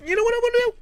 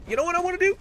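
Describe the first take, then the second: First: Shrill falsetto repeat, much higher; even higher squeal. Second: High squeaky question. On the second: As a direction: voice shoots way up, teasing. Caster builds to excited question. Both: Real, not acted.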